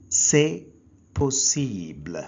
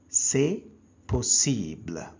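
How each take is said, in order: Both takes have the same delivery.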